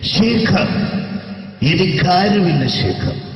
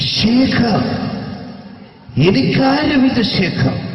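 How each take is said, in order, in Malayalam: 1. അനുകരിച്ച ശബ്ദം അടക്കിയതാണ്. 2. അനുകരിച്ച ശബ്ദം വളരെ അമിതമാണ്. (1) "ശരിക്കും സിനിമയിൽ ഉപയോഗിച്ച ശൈലി ഇത്ര അത്ര ഇല്ല, ഇങ്ങനെയാണ്" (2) "ഈ ടൈപ്പല്ല ഉമ്മർക്ക"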